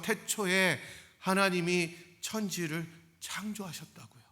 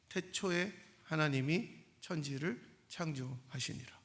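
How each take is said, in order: First: It is proclaimed forcefully to listeners. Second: It is read flatly, without emotion.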